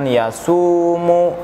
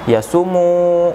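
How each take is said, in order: First: The middle vowel 'su' is held long. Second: The middle vowel 'su' is said short. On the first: The speaker calls it right. "melainkan yasumu" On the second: The speaker calls it wrong. "bukan yasumu, bukan, bukan seperti itu"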